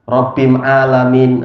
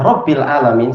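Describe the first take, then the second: First: The article is said with an m sound. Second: The article is said with an l sound. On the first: The speaker calls it wrong. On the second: The speaker calls it right.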